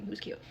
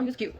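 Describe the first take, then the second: First: Soft, trailing confession; hushed aside. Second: Said in the usual way. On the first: Real, not acted. Storyteller admits handyman was cute, hushed aside. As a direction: tuck it away under the breath.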